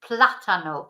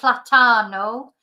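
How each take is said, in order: First: The stress is on the first syllable. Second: The stress is not on the first syllable. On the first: The speaker calls it right. "the stress is on the beginning of the word" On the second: The speaker calls it wrong.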